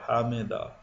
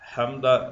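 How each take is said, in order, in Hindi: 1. इस शब्द में तीन शब्दांश हैं: ha-mi-da। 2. इस शब्द में दो शब्दांश हैं: ham-da। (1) "हा के ऊपर जबर, मीम के नीचे जेर, दाल के ऊपर जबर" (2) "हमदा बोलते बोलते हैं कुछ लोग, लेकिन वो सही नहीं"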